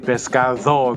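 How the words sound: It is said in a Castilian Spanish accent. "the Spaniards say pescado because they're Castilian"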